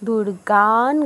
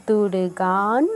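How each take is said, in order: Both takes have the same delivery.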